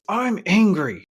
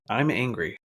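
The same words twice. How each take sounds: First: It is said with heated emotion. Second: It is said calmly and evenly. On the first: The feeling is driving the speaker. "expressing from the emotion in your body" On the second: The speaker is in control of the feeling. "expressing from a place where you're in control"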